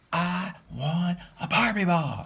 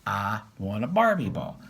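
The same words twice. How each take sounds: First: Put-on high, slow whiny toddler demand; high toddler voice, slow and insistent; louder toddler demand. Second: A light imitation of a stubborn toddler; mildly voiced toddler demand. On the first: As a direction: repeat it louder like a cross toddler. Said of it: "saying it louder". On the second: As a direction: stamp and demand it like a two-year-old. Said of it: "stamps her foot and proclaims".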